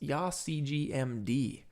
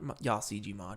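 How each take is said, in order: First: The ending is said as the letters M-D. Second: The ending is said as the word 'mod'. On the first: The speaker calls it right. "It's it's YawCGMD" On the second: The speaker calls it wrong. "Not YawCGMod"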